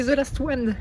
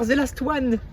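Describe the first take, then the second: First: Thick French accent on English; exaggerated French accent. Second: Said in the usual way. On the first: Shown as a demonstration. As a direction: say it like a proud Frenchman. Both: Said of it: "En accent bien français".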